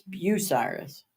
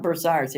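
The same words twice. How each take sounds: First: Bucyrus said slow as byoo-SY-rus, no R; correct Bucyrus. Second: Bursyrus with an R in the first syllable, bur-SY-rus; southern Bursyrus. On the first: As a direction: slowly give the local byoo-SY-rus. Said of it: "It's not Bursyrus". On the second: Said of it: "they call it Bursyrus". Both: Shown as a demonstration.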